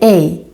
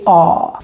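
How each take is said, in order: First: The vowel sounds like the English letter A. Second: The vowel is said with the jaw lowered. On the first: The speaker calls it wrong. "we don't say A" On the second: The speaker calls it right. "we say A. ... you need to put down your jaw"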